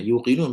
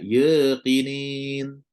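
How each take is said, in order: First: The vowels are rounded, ending in 'un'. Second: The vowels are unrounded, ending in 'in'. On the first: The speaker calls it right. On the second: The speaker calls it wrong.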